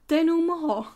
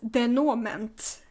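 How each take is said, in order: First: The name is said with French-style sounds. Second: The name is read as English spelling suggests. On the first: The speaker calls it right. "aha! Denouement. I get it" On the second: The speaker calls it wrong. "I think I pronounced it as Denouement, ... I also knew that it was entirely wrong"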